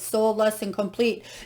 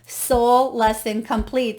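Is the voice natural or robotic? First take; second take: robotic; natural. First: It is said in a flat, robotic voice. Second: It is said in a natural speaking voice.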